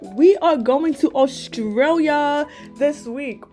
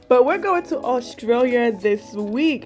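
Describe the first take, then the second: First: It is said in a put-on Australian accent. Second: It is said in the speaker's normal accent.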